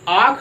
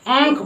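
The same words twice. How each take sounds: First: The first vowel is said through the mouth only. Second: The first vowel is said with air through the nose. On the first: The speaker calls it wrong. "आंख नहीं पढ़ते" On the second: The speaker calls it right. "आंख पढ़ते हैं। मतलब जो अ का उच्चारण हम नाक के द्वारा कर रहे हैं"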